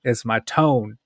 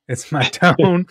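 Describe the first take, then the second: First: Said in the usual way. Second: Laughing at himself over his tone. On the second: Real, not acted. Admitting his tone to Jennifer, laughing. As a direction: chuckle through the word tone.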